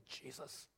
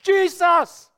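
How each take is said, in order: First: Hushed whisper of a holy name. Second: Loud, high shout of a holy name. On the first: Preacher shows the congregation whispering the name, whispered. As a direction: whisper it softly, almost no voice. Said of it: "whisper his name". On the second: Preacher shows the congregation shouting the name, shouted. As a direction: shout the name out with full force. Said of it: "or we shout his name". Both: Shown as a demonstration.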